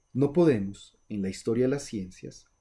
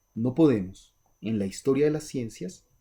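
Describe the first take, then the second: Both takes have the same delivery.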